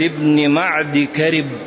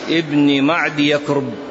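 First: The second part of the name begins with 'ka'. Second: The second part of the name begins with 'ya'. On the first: The speaker calls it right. "بل ابن معد كرب" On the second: The speaker calls it wrong. "كما ينطق بها خطأ"

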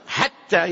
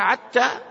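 First: The word begins with a breathy h sound. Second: The word begins with a throaty 'ayn sound. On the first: This is the usual reading of the word. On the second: This is how the Hudhayl dialect says the word.

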